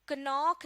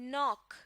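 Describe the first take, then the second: First: A K sound is heard before the N. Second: The word starts directly with the N sound. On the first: The speaker calls it wrong. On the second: The speaker calls it right.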